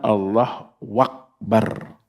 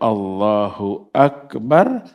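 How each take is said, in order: First: The 'hu a' is replaced by a 'wa' sound. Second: The 'hu' and the following 'a' are clearly pronounced. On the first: The speaker calls it wrong. "terdengar Allah wakbar. Haknya dibuang" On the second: The speaker calls it right.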